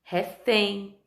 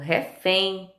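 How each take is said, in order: First: The stress is on the last syllable. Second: The stress is on the last syllable.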